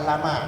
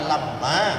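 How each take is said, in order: First: The m sound is single and short. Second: The m sound is doubled and held long. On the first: It means 'indeed'. "bisa Bapak baca lama tanpa tasdid" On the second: It means 'except' or 'only'. "Bisa Bapak baca lamma"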